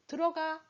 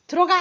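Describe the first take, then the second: First: Higher, easy and unforced; gentle permission. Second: Loud, abrupt command; harsh order. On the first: Father leaving the choice to the child, gentle permission. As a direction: let the child go in, no threat. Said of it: "뒤에는 뭐예요?". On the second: Father banishing child to the bathroom, harsh order. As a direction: bark it like an authoritarian parent. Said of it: "앞에는 뭐예요?". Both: Shown as a demonstration.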